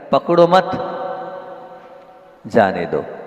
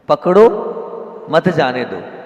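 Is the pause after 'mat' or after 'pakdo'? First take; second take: after mat; after pakdo. First: The pause comes right after 'mat'. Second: The pause comes right after 'pakdo'.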